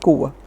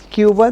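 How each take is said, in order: First: It is pronounced with Spanish sounds. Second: It is pronounced with English sounds. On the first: "but Spanish is Cuba" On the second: "English pronunciation is Cuba"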